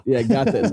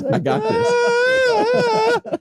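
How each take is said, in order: First: Said in the usual way. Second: Put-on very high, very slow squealing kid; a drawn-out, very high childlike I got this; proud toddler voice. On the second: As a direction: squeal it like a tiny kid who did it himself.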